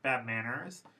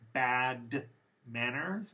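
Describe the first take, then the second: First: The D sound at the end of bad is dropped. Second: The D sound at the end of bad is pronounced.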